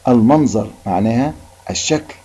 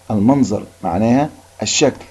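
Both takes have the same delivery.

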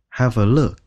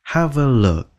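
First: "have a look" falling at the end; falling tune. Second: Slow "Have a look" rising at the end; rising tune. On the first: Teacher showing the falling way to say it. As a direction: let "have a look" drop away. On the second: Teacher showing the rising way to say it. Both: Shown as a demonstration. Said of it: "lên giọng hay là xuống giọng".

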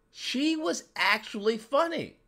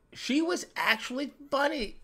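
No difference in how they are said.

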